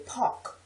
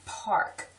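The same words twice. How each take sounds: First: "park" as PAWK; local pronunciation. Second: "Park" with a sounded R; full R before the K in "Park"; careful pronunciation. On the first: Local showing our way, "park" as pawk. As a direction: drop the R in "park". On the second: Word-list reading, "Park" with R pronounced. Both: Shown as a demonstration. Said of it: "We say park".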